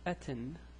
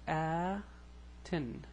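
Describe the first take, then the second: First: The first vowel is kept short. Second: The first vowel is drawn out long. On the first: "with normal, without the stretching" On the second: "I I stretch out the Aleph here"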